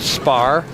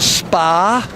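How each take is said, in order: First: The name is said in a plain accent. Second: The name is said in a Boston accent.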